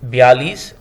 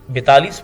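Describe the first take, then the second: First: There is no t sound in the middle. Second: There is a t sound in the middle. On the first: The speaker calls it right. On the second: The speaker calls it wrong.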